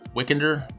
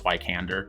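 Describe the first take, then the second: First: The first syllable sounds like 'wick'. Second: The first syllable sounds like 'why'. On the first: "could probably be pronounced Wickander" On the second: "but I think it's Wykander"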